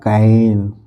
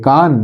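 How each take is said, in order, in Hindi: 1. यह आगे वाला 'a' स्वर है। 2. यह स्वर लंबा खुला 'ah' है। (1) "ये लिखा है कैन" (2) "नहीं"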